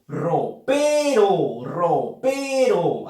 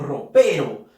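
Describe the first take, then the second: First: "ropero" muy lento, alargando "pe"; acento silábico marcado. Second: Said in the usual way. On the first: Shown as a demonstration. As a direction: estira la sílaba fuerte de "ropero". ("ropero" silabeado, con énfasis en "pe") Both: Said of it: "Así decimos nosotros".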